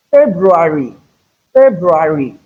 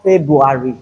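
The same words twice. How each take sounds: First: February with both Rs, FEB-roo-ary; articulated R. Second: February without its first R, FEB-you-ary; mispronounced February. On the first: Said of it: "ensure you articulate the R". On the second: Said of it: "So it is not February". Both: Shown as a demonstration.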